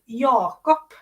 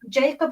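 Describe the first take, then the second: First: The name is pronounced the Swedish way. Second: The name is pronounced the English way. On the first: "Jakob in Swedish" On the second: "spell it in in English"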